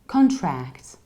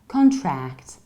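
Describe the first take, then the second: No difference in how they are said.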